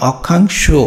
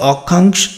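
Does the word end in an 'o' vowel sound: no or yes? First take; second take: yes; no. First: The word ends with a final 'o' vowel. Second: The word ends without a final 'o' vowel. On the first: The speaker calls it right. "শো লাস্টে" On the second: The speaker calls it wrong. "যে শো লাস্টে অক্ষাংশ এরকম তো না"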